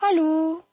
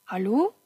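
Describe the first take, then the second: First: High, raised searching hello; high-pitched questioning call; louder calling out. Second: Questioning call with rising end; restrained, searching hello; tentative calling out. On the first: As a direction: call into the next empty room. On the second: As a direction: feel out whether anyone is there. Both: A narrator's reading. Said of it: "Han gikk fra rom til rom og ropte".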